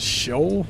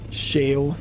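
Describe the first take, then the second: First: The vowel sounds like 'oh'. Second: The vowel sounds like 'ay'. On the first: "My brain wants to say shoal" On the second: "but maybe it's shale"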